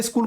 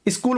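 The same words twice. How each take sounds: First: Said in the usual way. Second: "स्कूल" with a short i before the s; regional mispronunciation. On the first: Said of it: "स्कूल को क्या बोलते हैं". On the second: Retold or imitated. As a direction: imitate children saying "स्कूल" as i-skool. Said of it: "कुछ बच्चे स्कूल को क्या बोलते हैं". ("स्कूल" के आगे इ लगाकर)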